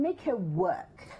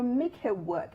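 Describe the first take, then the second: First: Each word drawn out, "make her work"; slow, emphatic. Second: "make her work" again with a laugh, rising; laughing repeat. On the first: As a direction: lean on every word, slowly. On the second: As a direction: tease it out while laughing. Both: Real, not acted.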